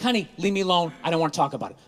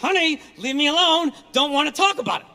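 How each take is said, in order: First: It is said calmly, with a relaxed mouth. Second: It is said tensely through clenched teeth.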